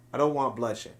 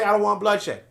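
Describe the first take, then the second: First: "I don't want bloodshed" said much lower and softer, hushed and mild; soft mock plea. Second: Said in the usual way. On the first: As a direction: murmur "bloodshed" gently, like a fake peacemaker. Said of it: "and you say to them". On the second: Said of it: "that's the only time you say".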